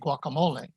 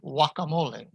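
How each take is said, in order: First: The G at the start is pronounced. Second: The G at the start is silent. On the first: "in English, we say guacamole" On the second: "in Spanish, it is simply guacamole"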